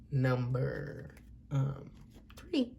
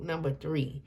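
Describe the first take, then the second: First: Softer, trailing "number, um, three"; voice got low. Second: Said in the usual way. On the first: Real, not acted. Reader introducing the group to viewers, voice dropping low. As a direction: let the voice sink away mid-announcement. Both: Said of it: "it's like my voice got low in it".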